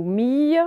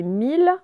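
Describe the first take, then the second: First: "mille" misread as meey; "mille" rhyming with "fille", no L; wrong ye reading. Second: "mille" said meel, clear L; "mille" like the number, L sounded; correct L reading. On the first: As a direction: end "mille" on a y glide. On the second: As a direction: say "mille" with an L ending. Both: Shown as a demonstration. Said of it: "c'est mille".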